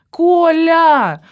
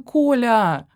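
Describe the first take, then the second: First: A much higher and louder shout of the name; demanding girlfriend shouting for her boyfriend; loud call. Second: Said in the usual way. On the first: Acted. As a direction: yell for him across the flat. Calling louder for Kolya.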